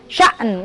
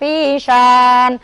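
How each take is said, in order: First: The vowel is cut by a glottal catch. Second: The vowel is drawn out long without a break. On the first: The speaker calls it right. "hamzah itu dia putus" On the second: The speaker calls it wrong. "Dibaca dia dipanjang"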